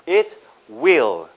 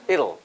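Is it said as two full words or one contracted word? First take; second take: full; contracted. First: Both words are said fully and separately. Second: The words are merged into one reduced word.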